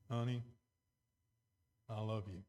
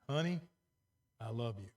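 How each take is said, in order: First: It is said in a flat, insincere tone. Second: It is said in a warm, sincere tone. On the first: The love is not really meant. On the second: The love is genuinely meant.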